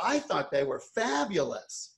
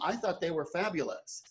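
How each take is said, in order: First: It is said in an exaggerated, put-on voice. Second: It is said in a plain, ordinary voice.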